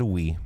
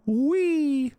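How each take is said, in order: First: Low, deadpan "Wee". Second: Squeaky high playful wee. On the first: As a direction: drop "Wee" flat and low. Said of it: "He said". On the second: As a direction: squeal it like a kid on a ride. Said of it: "and he went". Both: Retold or imitated.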